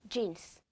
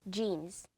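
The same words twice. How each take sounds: No difference in how they are said.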